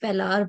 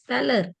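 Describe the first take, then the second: First: The second syllable has a long 'ar' vowel. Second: The second syllable has a short 'er' vowel. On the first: The speaker calls it wrong. "I don't know why पेलार बोलते हैं" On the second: The speaker calls it right. "This is पेलर"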